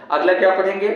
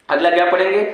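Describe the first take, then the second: No difference in how they are said.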